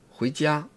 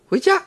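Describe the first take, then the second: First: It is said at a normal, lowered pitch. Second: It is said at a high, strained pitch.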